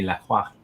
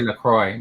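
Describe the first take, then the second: First: The name is said with a French pronunciation. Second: The name is said with an English pronunciation. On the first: "if he was from France, that would be Lacroix" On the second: "some people may say Lacroix"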